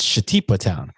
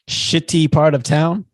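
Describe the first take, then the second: First: It is said fast, run together. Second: It is said slowly, words separated.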